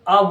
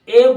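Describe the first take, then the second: First: The word has a short reduced uh vowel. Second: The word has a full ay vowel. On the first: The word is said within the flow of the sentence. "वीक form में बोला जाता है तो इसे आ बोला जाता है" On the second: The word is emphasized. "स्ट्रॉन्ग form में बोला जाता है तो ए को ए बोला जाता है"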